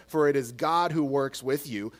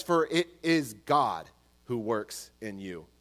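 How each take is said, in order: First: Said in the usual way. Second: Slow, weighted phrasing that sets IN you apart; lower, slower reading with IN you set off; stress on IN you. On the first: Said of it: "Verse thirteen does not say". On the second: Shown as a demonstration. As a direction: pause before the phrase, land firmly on IN you. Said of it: "It says".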